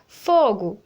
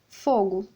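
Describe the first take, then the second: First: It is exclaimed with alarm, like a warning. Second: It is said as a plain, neutral word.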